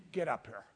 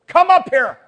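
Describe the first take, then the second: First: Soft, much lower-pitched call; low quiet summons. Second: High, booming call from above; loud summons. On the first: Voice calls the people up, low and quiet. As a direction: say the command under your breath. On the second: Voice calls the people up, loud shout. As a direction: shout the command out to everyone. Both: Acted. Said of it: "there's a voice saying to his, to the people".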